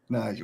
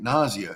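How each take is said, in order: First: The name does not sound like nausea. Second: The name sounds like the word nausea. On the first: The speaker calls it right. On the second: The speaker calls it wrong.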